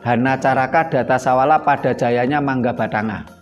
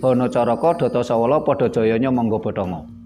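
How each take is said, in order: First: The vowels are pronounced as open 'a' sounds. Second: The vowels are pronounced as rounded 'o' sounds. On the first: This is the older reading of the script. "Jadi aksara Jawa itu" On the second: This is the newer reading of the script. "dalam sastra Jawa anyar dibaca menjadi"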